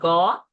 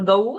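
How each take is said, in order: First: The vowel is a single plain 'a'. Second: The vowel glides from 'a' toward 'u'. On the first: The speaker calls it wrong. "and not Ga" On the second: The speaker calls it right. "so Gau and not Ga"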